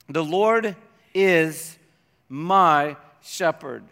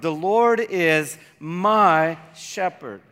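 First: The stress is not placed on "my". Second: The stress is placed on "my".

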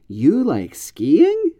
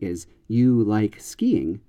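First: The pitch rises sharply at the end. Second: The pitch falls at the end. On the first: It expresses surprise or disbelief. "an intonation that goes way up at the end" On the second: It simply states a fact. "the declarative form, the statement"

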